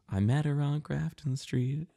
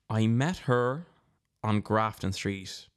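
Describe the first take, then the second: First: It is said quickly. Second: It is said slowly.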